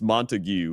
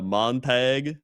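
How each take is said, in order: First: The name ends in a longer 'gyoo' sound. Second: The name ends in a short hard g sound. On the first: The speaker calls it right. "I guess it's Montague" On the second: The speaker calls it wrong. "It's like when I said uh"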